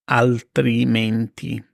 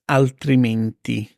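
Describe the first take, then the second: First: Slow, syllable by syllable altrimenti; slow model of altrimenti; slow and clear. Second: Said in the usual way. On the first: Shown as a demonstration. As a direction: stretch out altrimenti. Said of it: "slow repeat". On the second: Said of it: "new word then slow repeat".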